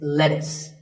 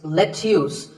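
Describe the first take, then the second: First: The word is said in its usual form. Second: The word is said following its spelling. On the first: The speaker calls it right. "It's lettuce" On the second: The speaker calls it wrong. "the spelling looks like it's lettuce, but it's not"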